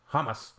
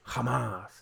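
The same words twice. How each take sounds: First: Hamas with the weight on HAM; short, unstressed final syllable in Hamas; first-syllable stress. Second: Hamas with the weight on MAS; long, stressed final syllable in Hamas; second-syllable stress. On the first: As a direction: say Hamas as HAH-muss, higher start. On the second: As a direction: say Hamas as huh-MAHS. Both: Shown as a demonstration. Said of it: "stressing the first syllable with all foreign words".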